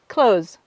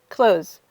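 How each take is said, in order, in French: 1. Le son th est supprimé du mot. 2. Le son th est supprimé du mot.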